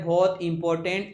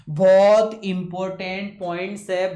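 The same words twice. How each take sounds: First: Said in the usual way. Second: बहुत important said louder and slow, each word leaned on; stress on important. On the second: Shown as a demonstration. Teacher stresses to students that the point matters, loud and slow. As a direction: lean hard on बहुत important. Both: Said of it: "important verb का difference बता रहा हूँ".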